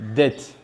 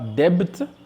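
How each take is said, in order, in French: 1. Le son B est muet. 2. Le son B est prononcé. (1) "mais dites dette" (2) "ne dites pas debt"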